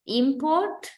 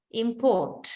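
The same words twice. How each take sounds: First: "Import" stressed on IM, rising at the end; noun stress on first syllable. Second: "import" stressed on PORT, falling; verb stress on second syllable. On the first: Teacher reads the noun of the pair, first-syllable stress on "Import". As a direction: hit IM in "Import", lift the ending. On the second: Teacher reads the verb of the pair, second-syllable stress on "import". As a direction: lean on PORT in "import" and drop. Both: Shown as a demonstration. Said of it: "find the syllable which is stressed".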